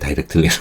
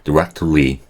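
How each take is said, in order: First: The stress is on the first syllable. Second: The stress is on the second syllable. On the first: The speaker calls it wrong. "한국 사람들이 상대적으로 앞을 너무 세게 해가지고 뒤가 약해갖고" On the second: The speaker calls it right. "뒤에를 세게 해주셔야 된다는 거예요. 원래 원래 오리지널 액센트니까"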